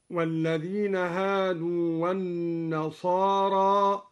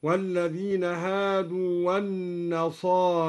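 First: والنصارى recited with a plain open alif, no imala; open alif in النصارى. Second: والنصاري with the alif after the ra leaned fully toward ee; major imala. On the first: Teacher reciting the standard reading with open alif in النصارى. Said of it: "قرأ الدوري بإمالة الألف". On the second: Teacher demonstrating al-Duri's major imala on والنصاري. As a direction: tilt the alif of والنصاري almost into an i sound. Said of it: "بإمالة الألف بعد الراء إمالة كبرى، هكذا". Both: Shown as a demonstration.

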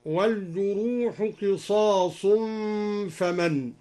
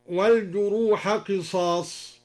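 First: والجروح ending in u, as wal-juruhu; al-Duri reading. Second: Said in the usual way. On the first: Shown as a demonstration. Teacher showing students the raf' reading of والجروح. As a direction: give والجروح a clear final damma. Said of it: "هكذا". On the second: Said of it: "قوله تعالى".

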